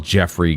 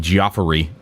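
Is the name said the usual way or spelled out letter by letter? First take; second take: usual; spelled-out. First: The name is said the usual way, as Jeffrey. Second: The name is sounded out following its spelling.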